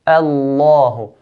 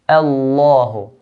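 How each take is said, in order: The two takes are said the same way.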